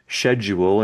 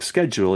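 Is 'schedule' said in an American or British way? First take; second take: British; American. First: It is pronounced the British way. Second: It is pronounced the American way. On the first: "the U K schedule" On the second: "instead of schedule"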